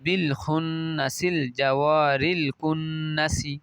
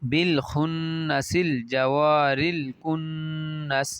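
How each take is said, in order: First: The final word ends with a short i vowel. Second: The final word ends on a bare s sound. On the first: "এভাবে সিনের নিচে হরকত দিয়ে পড়তে পারেন" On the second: "এভাবে বলতে পারেন"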